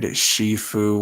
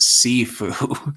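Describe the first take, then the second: First: The word begins with an 'sh' sound. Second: The word begins with an 's' sound. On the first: The speaker calls it wrong. "the way he said Shifu" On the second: The speaker calls it right. "when it is pronounced Sifu"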